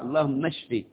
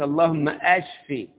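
First: The verb starts without a glottal stop. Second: The verb starts with a glottal stop. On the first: Heal the sick person. The speaker calls it right. "نحفظ الدعاء" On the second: Make the illness worse. The speaker calls it wrong. "ما ينفعش يقول اللهم اشفي، اشفي يبقى يزداد المرض"

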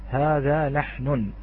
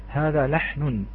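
No difference in how they are said.

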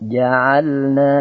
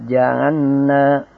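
First: The L is clearly pronounced before the N. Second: The L is merged into a double N. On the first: The speaker calls it right. "harus betul-betul dibaca dengan jelas" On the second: The speaker calls it wrong. "tidak boleh ja'anna"

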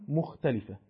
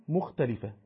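No difference in how they are said.

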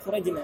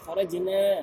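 First: The final vowel after the n is short. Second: The final vowel after the n is long. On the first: The speaker calls it wrong. "bukan pendek, bukan kharajna" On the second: The speaker calls it right. "tapi kharajna ... dipanjangkan nunnya"

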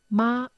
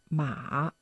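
First: The pitch stays high and level. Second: The pitch falls low and then rises. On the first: It means mother. "einen gleichbleibenden" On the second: It means horse.

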